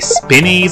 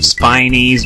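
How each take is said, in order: First: The first vowel is short, as in 'spin'. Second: The first vowel is long, as in 'spine'. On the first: The speaker calls it wrong. "I always tended to say spinnies as a kid" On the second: The speaker calls it right. "I'm gonna make an effort to call them spinies"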